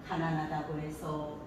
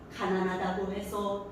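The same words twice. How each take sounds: First: The phrase is said at a normal pitch. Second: The phrase is said at a slightly raised pitch. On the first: "맨 처음에를 보통으로 갑니다" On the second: "좀 올라갔지 않았어요 제가? 두 번째는 살짝 올라갑니다"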